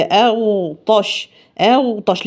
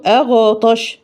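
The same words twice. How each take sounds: First: أغطش slow, the غ unbounced; correct reading. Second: أغطش with an echo on the غ; wrong qalqala. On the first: Teacher modelling the correct recitation. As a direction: say أغطش smoothly and slowly. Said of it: "لا، هي". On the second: Teacher imitating a mistake. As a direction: bounce the غ in أغطش. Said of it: "ما ينفعش أقول". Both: Shown as a demonstration.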